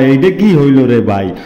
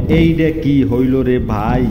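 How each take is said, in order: First: "এইডা কি হইল রে ভাই?" called out louder, stress on কি; louder quote. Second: Said in the usual way. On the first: Shown as a demonstration. Echoing what people say about his love, called out louder. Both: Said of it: "এটা কয় মানসে কয়".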